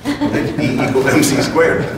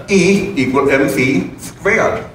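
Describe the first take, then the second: First: Said in the usual way. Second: Mock German accent, slow and higher; slow, heavy German-accented Einstein. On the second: Speaker mimics Einstein in a mock heavy German accent. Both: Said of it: "he said in a very heavy German accent".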